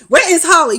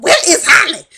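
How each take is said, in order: First: Loud, high furious repeat; louder furious yell, much higher; angry demand. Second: Shrill, loud furious demand, much higher; retold furious shout at Ghost; angry demand. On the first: Retold or imitated. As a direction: hammer the question again, enraged. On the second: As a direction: yell it at him in fury. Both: Angela confronts Ghost at hotel.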